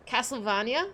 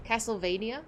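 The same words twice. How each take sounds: First: Castlevania with a broad ah, cas-tle-VAH-nya; posh pronunciation. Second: Castlevania with a long ay, cas-tle-VAY-nia; plain pronunciation. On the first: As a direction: try Castlevania the posh way, rising. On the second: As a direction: say Castlevania the everyday way, rising. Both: Shown as a demonstration. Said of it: "Castlevania sounds posh".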